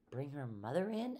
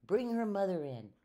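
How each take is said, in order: First: "Bring her mother in" at normal pitch, rising at the end; puzzled question. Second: "Bring her mother in" high and loud, falling at the end; firm order. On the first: Helper puzzled by doctor's order, "Bring her mother in" as rising question. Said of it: "asked Amelia Bedelia". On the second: Doctor correcting his helper, "Bring her mother in" as a firm order. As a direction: give "Bring her mother in" as a raised command. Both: A narrator's reading.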